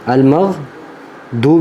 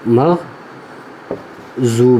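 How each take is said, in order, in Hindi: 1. मुख्य व्यंजन की आवाज़ सादे d जैसी है। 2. मुख्य व्यंजन की आवाज़ j जैसी है। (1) "दाल की आवाज़ भी नहीं आनी चाहिए" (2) "जा की आवाज़ नहीं आनी चाहिए"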